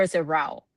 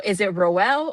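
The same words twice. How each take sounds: First: "Rowell" said like "rowl", rhyming with towel; Rowell as one syllable. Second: "Rowell" said "roh-EL", in two syllables. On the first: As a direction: say "Rowell" with the vowel of "how". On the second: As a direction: end "Rowell" like the word "well". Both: Shown as a demonstration. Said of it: "how do we pronounce the last name".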